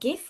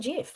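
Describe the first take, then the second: First: The word begins with a hard G sound. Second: The word begins with a J sound. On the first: "G or J?" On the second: "G or J?"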